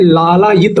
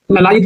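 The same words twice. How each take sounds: First: लालायित with a long first aa, laa-laa-yit, said clearly; teacher gives the right लालायित, long first aa; correct form. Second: ललायित said with a short first a, la-la-yit, as the mistaken form; teacher shows the wrong ललायित, short first a. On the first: Teacher to students giving the correct form, लालायित with long aa. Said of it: "लालायित होता है". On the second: Teacher to students marking the wrong spelling, ललायित with short a. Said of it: "ललायित नहीं होता है". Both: Shown as a demonstration.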